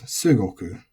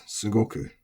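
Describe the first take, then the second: First: Sugoku with the accent moved earlier; unusual accent variant. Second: Said in the usual way. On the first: Shown as a demonstration. Teacher showing a form not heard, sugoku with shifted accent. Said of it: "have not heard this said as". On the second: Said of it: "we should keep this as".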